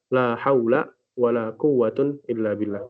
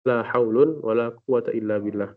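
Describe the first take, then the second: First: First noun ends in a, second in un. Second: First noun ends in un, second in a. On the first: "boleh difathahkan yang pertama dan dirafa'kan yang kedua" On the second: "raf'ul awal wa fathus tsani"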